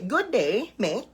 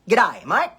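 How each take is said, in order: First: Each word is said fully, with a Filipino accent. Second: The words run together, with an Australian accent. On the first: "how do we Filipinos greet each other? We say" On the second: "But in Australia, ... It's"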